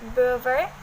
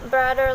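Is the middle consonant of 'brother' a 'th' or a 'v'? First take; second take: v; th. First: The middle consonant is a v sound. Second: The middle consonant is a th sound.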